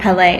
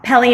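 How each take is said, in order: First: The name is said in the Hawaiian way. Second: The name is said in a non-Hawaiian way. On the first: "Pele is the Hawaiian pronunciation" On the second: "Pele is what my mother calls me"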